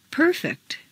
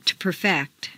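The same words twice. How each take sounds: First: PERfect, stressed on the first syllable. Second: PerFECT, stressed on the second syllable. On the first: Teacher models "Perfect", first-syllable stress. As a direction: hit PER in "Perfect". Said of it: "change the stress". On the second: Teacher models verb "perfect", second-syllable stress. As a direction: hit FECT in "perfect". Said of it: "to the second syllable". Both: Shown as a demonstration.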